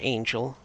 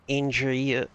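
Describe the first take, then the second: First: It is said with a plain English accent. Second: It is said with a Japanese accent. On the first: "the English word angel" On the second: "the way that a Japanese person would pronounce the English word"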